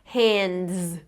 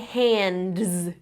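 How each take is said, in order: The two takes are said the same way.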